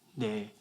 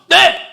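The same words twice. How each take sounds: First: It is said quietly and weakly. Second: It is said loudly and forcefully.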